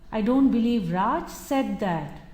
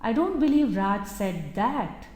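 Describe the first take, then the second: First: The word said carries the main stress. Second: The word that carries the main stress. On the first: It may have been thought but not said aloud. "He might have contemplated it, but actually having said that may not be possible" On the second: Something different may have been said instead. "He might have said something else, but not that"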